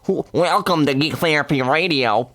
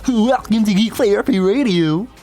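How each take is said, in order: First: A put-on, nerdy geek voice. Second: A put-on, goofy cartoon-character voice. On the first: The speaker calls it right. "That's pretty good" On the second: The speaker calls it wrong. "Why'd I sound like Goofy?"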